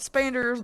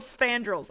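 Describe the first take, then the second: First: It starts with 'sp' and ends in 'ders'. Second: It starts with 'sp' and ends in 'drels'. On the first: The speaker calls it wrong. "I have been saying that wrong" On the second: The speaker calls it right. "I finally figured out how to say it right"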